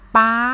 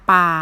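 First: The pitch stays high throughout. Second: The pitch stays low throughout.

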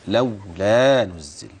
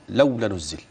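First: The long vowel is held full length. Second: The long vowel is cut short. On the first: The speaker calls it right. "أخلي بالي من المد الأصلي" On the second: The speaker calls it wrong. "كثير كان بيقرأ"

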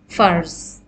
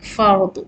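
First: The word ends in a z sound. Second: The word ends in an emphatic d sound. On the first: This is how Urdu speakers pronounce it. "in Urdu, the daad is pronounced as za" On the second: This is the original Arabic pronunciation. "original word is Arabic, fard with daad"

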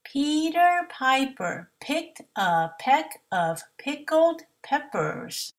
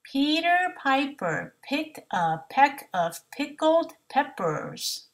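The two takes are said the same way.

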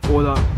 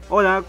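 First: It is said in a put-on phone voice. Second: It is said in the speaker's natural voice.

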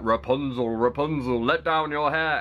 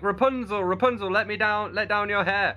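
First: It is said in a prince's voice. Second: It is said in a witch's voice.

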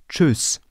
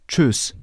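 The two takes are said the same way.

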